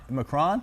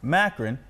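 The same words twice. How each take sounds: First: "Macron" as muh-CRON, rising like a question; tentative Macron. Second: "Macron" stressed on the first syllable, MACK-run; MACK-run pronunciation. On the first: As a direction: ask "Macron" with stress on the second syllable, muh-CRON. Tries it before coach's choice. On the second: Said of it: "Let's go with Macron". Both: Shown as a demonstration.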